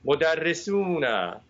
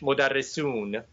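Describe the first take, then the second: First: It is said at a normal, careful pace. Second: It is said fast, with the ending clipped.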